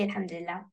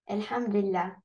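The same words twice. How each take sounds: First: It is said at normal speed. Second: It is said slowly.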